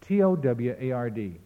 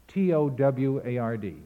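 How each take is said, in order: Both takes have the same delivery.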